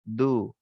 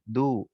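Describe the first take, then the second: The two takes are said the same way.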